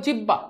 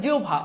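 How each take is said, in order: First: জিহ্বা read letter by letter as jihba, the way students say it; জিহ্বা with a plain h and b, as it is spelt; wrong pronunciation. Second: জিহ্বা said as jiubbha with a breathy bh; জিহ্বা with the h turned to u and bh; correct pronunciation. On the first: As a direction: say জিহ্বা as jih-ba, the common mistake. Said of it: "this is not জিহ্বা". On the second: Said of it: "উচ্চারণটা হবে জিহ্বা". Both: Shown as a demonstration.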